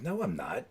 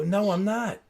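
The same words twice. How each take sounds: First: Low-key retold refusal, softly said; understated, soft no; mild refusal. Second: Higher-pitched mock protest; retold stubborn comeback, pitched up; insistent refusal. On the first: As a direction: decline quietly, without pushing. Retold back-and-forth refusal, first take. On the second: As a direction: dig in and refuse, pitch rising. Retold back-and-forth refusal, escalating.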